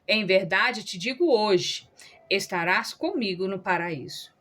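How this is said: The pause comes after the word hoje.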